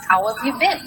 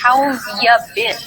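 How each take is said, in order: First: It is said at natural speed. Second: It is said very slowly.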